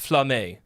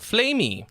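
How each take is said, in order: First: The surname is said the French way. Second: The surname is read the English way. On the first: The speaker calls it right. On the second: The speaker calls it wrong.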